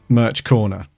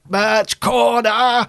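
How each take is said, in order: First: It is said in an ordinary, plain voice. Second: It is said in a harsh, robotic Dalek-like voice. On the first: The speaker calls it wrong. "if you just say like merch corner" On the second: The speaker calls it right. "you have to sort of put everything into it"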